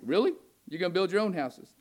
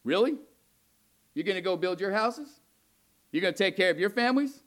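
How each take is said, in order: First: Incredulous mock question with a rising "Really?"; sarcastic. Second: Mock-incredulous rhetorical questions; sarcastic. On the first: God scoffing at the remnant, sarcastic. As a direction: needle them, disbelieving and sarcastic. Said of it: "It was sarcastic". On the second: God mocking the remnant who build their own houses, sarcastic. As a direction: voice God needling his people with sarcasm. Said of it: "It's somewhat sarcastic".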